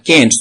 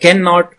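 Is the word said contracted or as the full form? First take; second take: contracted; full form. First: The word is said in its shortened contracted form. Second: The word is said in its full form.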